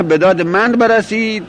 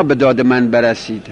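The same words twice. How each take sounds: First: "من" stressed in a higher-pitched phrase; higher, contrastive emphasis on "من". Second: Said in the usual way. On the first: Shown as a demonstration. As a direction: lift the phrase to insist on "من". Corrects: me, not those others.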